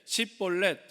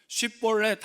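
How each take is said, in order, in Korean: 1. 이 단어는 s 소리로 시작합니다. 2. 이 단어는 sh 소리로 시작합니다. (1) "근데 쉽볼렛 하면은 죽이는 거예요" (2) "쉽볼렛 하면은 살리는 거예요"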